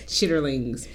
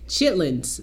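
First: The word is said in its full, longer form. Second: The word is said in a shortened, contracted form. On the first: This is the speaker's own way of saying it. "I call them chitterlings" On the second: This is how most other people say it. "That's how they say it"

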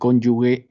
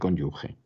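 First: The last consonant is a hard g sound. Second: The last consonant is a throaty j sound. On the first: The speaker calls it wrong. "se empeña en decir cónyuge" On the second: The speaker calls it right. "en vez de cónyuge"

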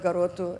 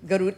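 First: Said in standard Portuguese with the final vowel kept. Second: Said in an Azorean accent with the final vowel dropped. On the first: "instead of garoto" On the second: "they say garut"

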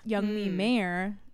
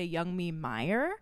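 First: Mayer sounds like the singer's name. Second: Mayer sounds like the sausage brand's name. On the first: The speaker calls it right. "but it's Young Me Mayer, like the singer, not the wiener" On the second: The speaker calls it wrong. "they'll say Young Me Mayer"

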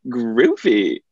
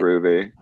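First: It is said in a lively, animated way. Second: It is said in a flat, dry way.

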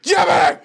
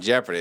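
First: It is said loudly, with excitement. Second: It is said flatly, without excitement.

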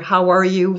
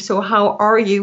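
First: It sounds quick and dismissive, without interest. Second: It sounds genuinely interested and caring.

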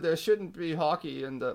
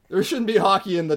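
First: It is spoken in a British accent. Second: It is spoken in a North American accent.

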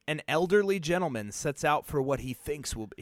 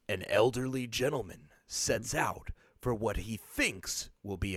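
First: It is read in an ordinary speaking voice. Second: It is read in a dramatic movie-trailer voice.

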